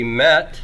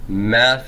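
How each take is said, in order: First: The word ends in a plain t sound. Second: The word ends in a th sound. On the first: The next word begins with a smooth breathing. "if I have a smooth breathing" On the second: The next word begins with a rough breathing. "Meth with a rough breathing"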